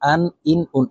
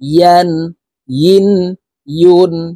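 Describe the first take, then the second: First: The syllables start with a bare vowel. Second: The syllables start with a y sound. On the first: The speaker calls it wrong. "আমরা অনেকেই কমন একটি ভুল করে থাকি, ... এইভাবে পড়ে থাকি" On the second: The speaker calls it right. "ইয়ার উচ্চারণ করতে হবে জিহ্বার মধ্যখান থেকে"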